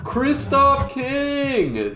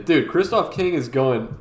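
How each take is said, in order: First: Slow, high, stretched-out name; drawn-out hype call. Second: Said in the usual way. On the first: Real, not acted. Announcing a chatter, drawn out.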